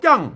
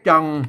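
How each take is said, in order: First: The word is said with the tho tone. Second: The word is said with the ek tone. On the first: "ใส่ไม่โทจัง" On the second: "ใส่ไม่เอกจัง"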